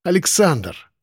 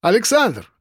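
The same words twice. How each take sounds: First: Pressed, slightly anguished repeat of the name; insistent, strained. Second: High falling hail; calling out. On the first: Koshkin repeating his call to Alexander, insistent strain. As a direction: press the name with a touch of desperation. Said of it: "с нажимом и даже надрывом повторил". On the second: Coworker hailing Alexander in the canteen queue, calling out. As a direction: hail him by name across the room. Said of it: "окликнули меня". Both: A narrator's reading.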